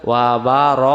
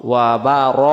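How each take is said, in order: Both takes have the same delivery.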